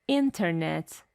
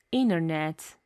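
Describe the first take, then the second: First: Internet with a clear T, in-ter-net; careful internet. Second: Internet with the T dropped, inner-net; American internet. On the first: Teacher demonstrating internet with a full T. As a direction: say internet with the T sounded. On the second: Teacher demonstrating internet with a silent T. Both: Shown as a demonstration.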